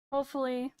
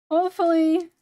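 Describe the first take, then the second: First: Said in the usual way. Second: Hopefully! shouted out loud; loud exclaim. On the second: Shown as a demonstration. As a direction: belt out Hopefully! with force.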